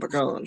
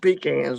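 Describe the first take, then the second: First: The word does not sound like 'pea' plus 'can'. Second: The word sounds like 'pea' plus 'can'. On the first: This is how people here say it. "but we call them pecans here" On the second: This is how people in another region say it. "you take a tin can of pea in it, that's what they have in Georgia"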